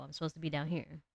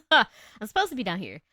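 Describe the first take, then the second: First: Settled down in a low alto register. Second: Loud, swooping line after a laugh; laugh, then play it up loudly; laughing, exaggerated. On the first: Streamer showing her natural alto, pitched low. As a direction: drop gently into your low range. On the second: Streamer joking about her alto range, loud and laughing. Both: Shown as a demonstration. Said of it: "My voice is supposed to be low".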